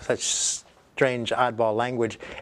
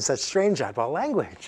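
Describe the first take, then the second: First: The voice sounds irritated and disapproving. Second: The voice sounds pleased and approving. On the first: The listener dislikes the odd wording. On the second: The listener enjoys the odd wording.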